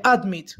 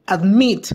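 First: "admit" stressed wrongly on AD; stress on first syllable. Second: "Admit" stressed on MIT; stress on last syllable. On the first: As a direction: say "admit" with the weight on ad-, not mit. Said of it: "si fuera en ad, se pronunciaría". ("admit" con el acento en la primera sílaba, AD-mit) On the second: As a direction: say "Admit" with the weight on the final mit. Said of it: "tiene el acento en la última sílaba". ("Admit" con el acento en la última sílaba, ad-MIT) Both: Shown as a demonstration.

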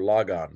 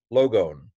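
First: "logon" said as "lah-gahn"; open-o pronunciation. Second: "Logon" said as "loh-gohn"; long-o pronunciation. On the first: Teacher offers learners the other pronunciation, "logon" as "lah-gahn". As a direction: open both vowels in "logon" to ah. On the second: Teacher models Greek word for learners, "Logon" with long o's. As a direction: give both vowels in "Logon" a long o. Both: Shown as a demonstration. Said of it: "depending on how you pronounce it".

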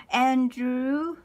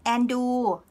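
First: Said in the usual way. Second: Andrew in a Thai accent, r dropped, nasal first vowel. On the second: Shown as a demonstration. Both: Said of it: "So this is, uh, the Thai accent".

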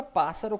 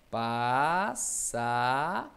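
First: Said in the usual way. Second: PASSA as a long "pá", then a long "ssa"; syllable by syllable. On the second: Shown as a demonstration. Teacher showing the separation, passa split and stretched. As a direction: draw out passa in separated pieces. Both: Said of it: "ó a separação".

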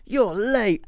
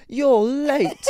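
First: A high, teasing "You're late" pushed right into her face; mock cheeky greeting. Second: A loud, high teasing "You're late"; spring it on her like a prank; mock cheeky greeting. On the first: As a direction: jerk forward and tease. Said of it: "right in her face". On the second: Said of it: "pulled the door open and went".

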